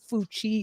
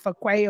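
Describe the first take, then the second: First: The name is said like 'Foo-chee'. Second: The name is said like 'Fa-kway'. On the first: The speaker calls it wrong. "it's not pronounced as Fucci" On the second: The speaker calls it right. "It's pronounced as Fakwe or something like that"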